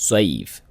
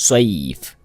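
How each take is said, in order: The two takes are said the same way.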